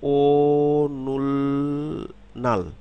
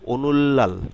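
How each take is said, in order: First: Syllables said apart, with an L then N. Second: Said as one word with a double L.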